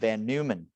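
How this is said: The name is pronounced the English way.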